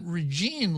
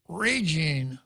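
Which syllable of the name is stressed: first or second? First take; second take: second; first. First: The stress is on the second syllable. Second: The stress is on the first syllable. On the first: The speaker calls it wrong. "her name is not Regine Lee" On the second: The speaker calls it right. "the emphasis has to be on the first syllable"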